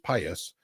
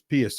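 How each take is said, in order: First: It uses the current everyday pronunciation. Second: It uses the older, Latin-style pronunciation. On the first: This is how the word is said now. "We pronounce it as pious" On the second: This is how the word used to be said. "we don't pronounce pious as pious anymore"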